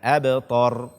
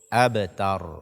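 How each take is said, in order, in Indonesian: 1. Bunyi t tebal dan berat. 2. Bunyi t tipis dan ringan.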